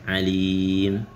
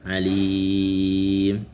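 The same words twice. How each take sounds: First: The long vowel is held for two beats. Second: The long vowel is held for four beats. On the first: "Dua harokat" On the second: "Empat harokat gitu"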